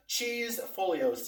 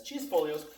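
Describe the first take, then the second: First: Cheese Folios spelt out slowly, every syllable drawn long; carefully drawn-out "Cheese Folios" for the viewers; slow and clear. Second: Said in the usual way. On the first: Shown as a demonstration. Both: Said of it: "C H E E S E F O L I O S".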